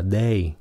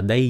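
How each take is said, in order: First: DAY with a clean AY vowel, like "đê-i"; correct DAY. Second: DAY mispronounced like Vietnamese "đai"; wrong vowel. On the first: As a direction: model DAY correctly, not "dai". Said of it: "nó là day". (đọc đúng "day", không thành "đai") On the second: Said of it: "Cái chữ này đừng có phát âm nó là day nha". (đọc sai "day" thành "đai") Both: Shown as a demonstration.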